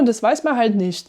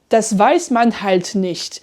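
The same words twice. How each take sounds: First: The phrase is said at quick, natural speed. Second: The phrase is said slowly and deliberately.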